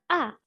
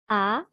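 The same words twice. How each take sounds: First: The pitch falls sharply from high. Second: The pitch rises from mid to high.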